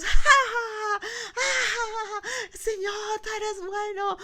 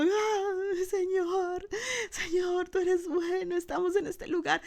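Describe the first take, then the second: First: Very high, whooping cry of praise; joyful shouting. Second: High-pitched tearful wail to God; weeping praise. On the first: Pastor acting the others shouting for joy, joyful shouts. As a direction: burst out loud, then hold it high. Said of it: "los otros estaban dando gritos". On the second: Pastor acting the elders crying before God, weeping praise. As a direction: cry out the words as if overcome. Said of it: "mientras los ancianos estaban llorando". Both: Acted.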